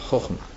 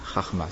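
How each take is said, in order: First: The first vowel is pronounced as o. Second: The first vowel is pronounced as a. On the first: The speaker calls it right. "Il faut dire Chochma" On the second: The speaker calls it wrong. "alors il a dit Chachma, ce qui est une erreur"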